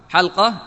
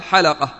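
First: "حلقة" with a vowelless lam, two syllables; lam with sukun. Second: "حلقة" with an open a after the lam, three syllables; lam with fatha. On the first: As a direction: say "حلقة" as hal-qa, closing on the l. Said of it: "بإسكان اللام". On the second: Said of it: "بفتح اللام". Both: Shown as a demonstration.

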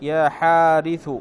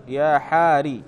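First: يا حارث said slowly with the ث clearly sounded; slow teaching demo of the full name; full form demo. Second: يا حاري, the ث dropped so the word ends on a kasra i; plain demo of the clipped vocative; truncated form demo. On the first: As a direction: give the whole name يا حارث, ث intact. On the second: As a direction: cut يا حاري short after the ر with a light i. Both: Shown as a demonstration. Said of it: "فتقول مثلًا في".

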